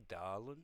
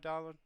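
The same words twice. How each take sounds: First: The word is said in a sultry, seductive tone. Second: The word is said in a warm, friendly tone. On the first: The speaker is flirting with the listener. The speaker calls it wrong. "You can't go, ... That's too sexy" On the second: The speaker is being kind and friendly. The speaker calls it right. "It's just an affectionate way to talk to people"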